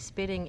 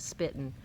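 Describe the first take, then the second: First: The ending is a full 'ing' sound. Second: The ending is clipped to an 'in' sound. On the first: "You hear the ing when I say it" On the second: "I don't do a spitting"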